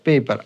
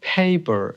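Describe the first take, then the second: First: The first p is plain, with no puff. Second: The first p has a strong puff of air. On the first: The speaker calls it wrong. "আমরা বলি P A P E R পেপার" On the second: The speaker calls it right. "এটার উচ্চারণ হবে হলো ফেইপার"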